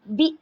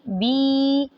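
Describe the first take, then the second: First: The vowel is cut off with a jerk. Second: The vowel is drawn out long. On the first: "और झटका भी नहीं देंगे" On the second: "इसकी आवाज़ को भी लंबा नहीं करेंगे"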